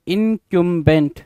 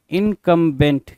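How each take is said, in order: First: इनकम्बेंट said slowly as in-KYUM-bent; KYUM pronunciation. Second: इनकम्बेंट said slowly as in-KUM-bent; KUM pronunciation. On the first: Teacher reading out the exam word, इनकम्बेंट slowly as in-kyoom-bent. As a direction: middle of इनकम्बेंट as "kyoom", drawn out. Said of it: "कुछ लोग इसको इनकम्बेंट पढ़ सकते हैं". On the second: Teacher giving students the other reading, इनकम्बेंट slowly as in-kum-bent. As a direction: middle of इनकम्बेंट as a short "kum". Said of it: "कुछ लोग इनकम्बेंट पढ़ेंगे". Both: Shown as a demonstration.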